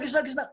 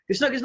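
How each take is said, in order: First: It is said at a normal, softer volume. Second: It is said a bit more loudly. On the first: It expresses mild surprise at what was done. "बस tone में अंतर होता था थोड़ा ना" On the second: It tells someone firmly not to put it there. "थोड़ा जोर से बोल देते थे"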